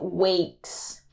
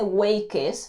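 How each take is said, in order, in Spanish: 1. La terminación es solo un sonido de s simple. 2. La terminación se pronuncia como una sílaba extra. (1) "simplemente se dice wakes, wakes, con la s al final" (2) "aquí no se dice wakes, no"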